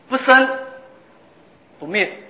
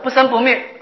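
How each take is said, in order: First: It is split into two phrases with a pause. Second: It is run together as one phrase, no pause. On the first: Both arising and ceasing are negated separately, leaving both extremes. The speaker calls it right. "这是两句话" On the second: Some thing exists that neither arises nor ceases. The speaker calls it wrong. "你把这两句话合成一句话"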